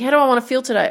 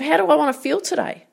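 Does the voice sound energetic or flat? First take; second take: flat; energetic. First: The voice is flat and low in energy. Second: The voice is lively and full of energy. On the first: The person feels unmotivated and down. The speaker calls it wrong. "I'm so flat" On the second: The person feels positive and motivated. The speaker calls it right. "That sounds so much better"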